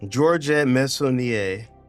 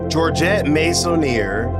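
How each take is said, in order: First: The surname is said with French sounds. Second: The surname is said with English sounds.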